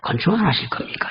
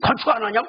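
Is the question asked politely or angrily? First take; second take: politely; angrily. First: It is asked politely and calmly. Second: It is snapped out sharply and angrily.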